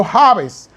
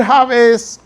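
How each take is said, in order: First: "Jabes" stressed on the A, JÁ-bes; first-syllable stress. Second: "Jabes" stressed on the last syllable, ja-BÉS; final-syllable stress. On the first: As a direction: say "Jabes" Spanish-style as JÁ-bes. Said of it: "La acento en la A". ("Jabes" con acento en la A, JÁ-bes) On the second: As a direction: say "Jabes" Hebrew-style as ja-BÉS. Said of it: "se acentúan regularmente al final". ("Jabes" con acento en la última sílaba, ja-BÉS) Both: Shown as a demonstration.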